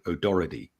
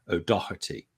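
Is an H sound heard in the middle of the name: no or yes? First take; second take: no; yes. First: The middle is said without any H sound. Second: The middle is said with a clear H sound. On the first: This is how most people in America say it. "sounds like it's O D O R R E D Y" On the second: This is how most people in Britain and Ireland say it. "So you're pronouncing the H"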